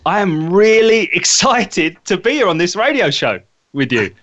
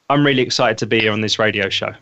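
First: It sounds genuinely excited and engaging. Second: It sounds flat and unconvincing.

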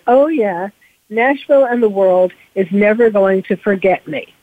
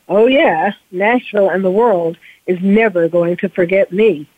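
First: It is said in a light, casual tone. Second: It is said in a darker, intense tone. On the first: It sounds like a plan for a good Christmas. "you can kind of say it like that, which is probably how he said it, you know, very casually" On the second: It hints at a terrible hidden plan. "really what he was saying inside his head was"

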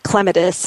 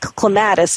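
First: It is pronounced in a British way. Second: It is pronounced in a non-British way.

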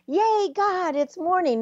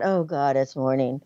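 First: It sounds happy and excited. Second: It sounds weary and dreading.

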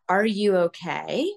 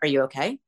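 First: It sounds gently curious and caring. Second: It sounds tense, suspicious and accusing.

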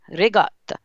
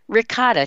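First: Ricotta is said with an Italian-style pronunciation. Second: Ricotta is said with an American pronunciation. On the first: This is how the speaker's Italian family says it. "But we say ricotta" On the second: This is how many Americans say it. "as many Americans say it"

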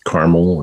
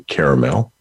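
First: It has a North Dakota pronunciation. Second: It has another regional pronunciation.

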